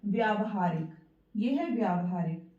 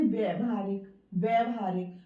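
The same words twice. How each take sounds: First: व्यावहारिक with long व्या clearly held; correct pronunciation. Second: व्यवहारिक said with short व्य, no long आ; wrong pronunciation. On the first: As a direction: say व्यावहारिक, stretching the long आ after व्य. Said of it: "अगला शब्द है". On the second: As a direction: show the common mistake व्यवहारिक, first vowel clipped short. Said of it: "कुछ लोग इसको बोलते हैं". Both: Shown as a demonstration.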